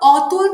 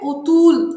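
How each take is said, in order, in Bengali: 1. প্রথম স্বরধ্বনিটি একটি খোলা 'aw' ধ্বনি। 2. প্রথম স্বরধ্বনিটি একটি বদ্ধ 'o' ধ্বনি। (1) "অ থেকে ও এর উচ্চারণ চলে আসছে" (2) "অ থেকে ও এর উচ্চারণ চলে আসছে"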